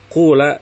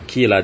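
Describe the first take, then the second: First: The first vowel is a u sound. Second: The first vowel is an i sound. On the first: "mendomahkan yang pertama ... dibacanya qula" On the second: This is the widely known form. "Jadi bukannya qila dan bi'a"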